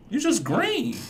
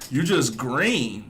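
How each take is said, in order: First: Much higher, squeaky mocking pitch. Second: Said in the usual way. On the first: Real, not acted. Teasing the man in the video, squeaky mock. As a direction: squeak it out like a tease.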